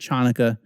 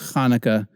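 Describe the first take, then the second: First: It starts with a 'ch' as in 'church'. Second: It starts with a raspy sound from the throat. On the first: The speaker calls it wrong. "It's not Chanukah" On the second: The speaker calls it right. "the ch in the transliteration of Hanukkah is making a guttural sound"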